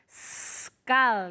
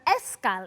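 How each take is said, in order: First: The word starts directly with the s sound. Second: An extra vowel sound comes before the s. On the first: The speaker calls it right. "It's always skull" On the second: The speaker calls it wrong. "Never ever escal"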